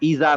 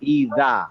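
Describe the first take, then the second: First: The middle consonant is a z sound. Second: The middle consonant is a d-like sound. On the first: The speaker calls it wrong. "এটা ইজা না" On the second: The speaker calls it right.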